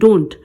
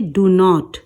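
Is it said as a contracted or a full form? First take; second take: contracted; full. First: It is said as one contracted syllable. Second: It is said as two separate full words. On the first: This is the form for speaking fluently. "आपको fluency में बोलना बोलना होता है तो कैसे बोलते हैं?" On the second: This is the form when not speaking fluently. "और नहीं तो कैसे कहेंगे?"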